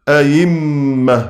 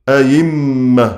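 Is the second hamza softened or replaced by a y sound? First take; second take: y sound; y sound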